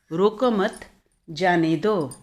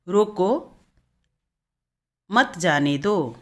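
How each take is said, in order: First: "रोको मत" as one unit, short pause, then "जाने दो"; pause after मत. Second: "रोको" rising, long pause, then slow "मत जाने दो"; pause after रोको. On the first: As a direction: keep रोको and मत together, break before जाने. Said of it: "भिन्न-भिन्न विराम चिन्ह के माध". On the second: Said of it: "दूसरा वाक्य है". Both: Shown as a demonstration.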